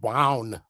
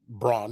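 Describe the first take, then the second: First: The name is said with a German pronunciation. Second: The name is said with an American pronunciation. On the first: The speaker calls it right. "It's pronounced von Braun in German" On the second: The speaker calls it wrong. "That's an American pronunciation"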